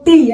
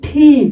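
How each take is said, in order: First: The t is plain, with no puff of air. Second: The t has a breathy puff, like ঠ. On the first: The speaker calls it wrong. "It's not টি" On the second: The speaker calls it right. "এটার উচ্চারণ হবে ঠি"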